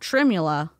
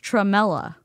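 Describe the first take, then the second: First: The word is said as 'tremula'. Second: The word is said as 'tremella'. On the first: The speaker calls it wrong. "It's not tremula" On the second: The speaker calls it right. "It's tremella"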